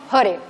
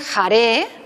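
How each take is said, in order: First: The stress is on the first syllable. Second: The stress is on the second syllable. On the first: The speaker calls it right. "la acentuación aquí es en la primera sílaba" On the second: The speaker calls it wrong. "no es jare"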